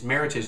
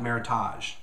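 First: The word ends rhyming with heritage. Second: The word ends not rhyming with heritage. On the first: The speaker calls it right. "Meritage is supposed to rhyme with heritage" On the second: The speaker calls it wrong. "not Meritage"

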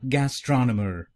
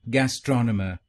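First: It is said in an American accent. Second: It is said in a British accent.

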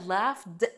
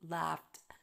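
First: The ending is said heavily, with extra effort. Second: The ending is said lightly, like a 't'. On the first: The speaker calls it wrong. "لو قلنا laughed هتبقى تقيلة" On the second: The speaker calls it right. "فالاي دي هنا بنطقها like ta"

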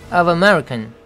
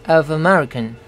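No difference in how they are said.

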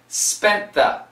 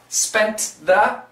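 First: The T is dropped, linking straight into th. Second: The T at the end of spent is pronounced. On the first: The speaker calls it right. "we only keep the TH" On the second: The speaker calls it wrong.

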